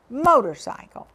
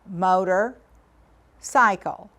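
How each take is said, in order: First: The word is said quickly as one unit. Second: The word is split into two parts with a pause.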